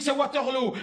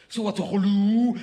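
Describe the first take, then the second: First: "Waterloo" ending in a closed "lo"; Belgian Waterloo. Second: "Waterloo" stretched slowly, ending in "lou"; Swedish Waterloo. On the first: Telling her the Belgian way, "Waterloo" with o. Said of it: "mais en Belgique". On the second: Mocking the Swedish way, a slow "Waterloo" in "lou". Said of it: "pour les Suédois". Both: Retold or imitated.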